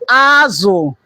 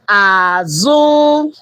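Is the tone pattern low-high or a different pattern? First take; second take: different pattern; low-high. First: The tones are not low then high. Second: The tones are low then high. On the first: It means fish. "it also mean fish" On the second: It means back. "Low high"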